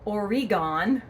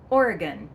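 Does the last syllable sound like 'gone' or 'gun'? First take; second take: gone; gun. First: The last syllable sounds like 'gone'. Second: The last syllable sounds like 'gun'. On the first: The speaker calls it wrong. "or Oregon" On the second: The speaker calls it right. "Say it quickly, ... it's gun at the end, not gone"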